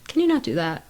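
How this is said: The tone is gentle and kind. The request is a caring call-up. The speaker calls it right. "It was ... my tone was good or better"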